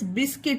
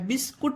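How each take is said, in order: First: The second vowel is a short 'i' sound. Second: The second vowel is an 'oo' sound. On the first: The speaker calls it right. "बिस्किट होता है" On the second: The speaker calls it wrong. "बिस्कुट नहीं, यू का उच्चारण नहीं है"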